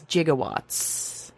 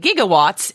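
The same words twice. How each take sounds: First: It starts with a soft J sound. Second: It starts with a hard G sound. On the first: The speaker calls it right. "actually correct as gigawatts" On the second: The speaker calls it wrong. "what we normally would say gigawatts"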